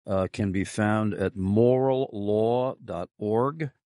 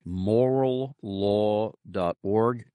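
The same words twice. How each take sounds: First: Said in the usual way. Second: Moral law dot org said slowly, each word apart; slow, spelled-out emphasis. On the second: Real, not acted. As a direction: repeat it slowly so listeners note it down. Repeating web address for listeners.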